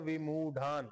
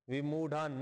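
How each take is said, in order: The two takes are said the same way.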